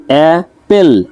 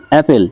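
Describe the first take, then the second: First: অ্যাপেল slowly split as অ্যা, পেল; two separate beats on অ্যাপেল; syllable by syllable. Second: Said in the usual way. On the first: Shown as a demonstration. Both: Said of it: "দুইটা".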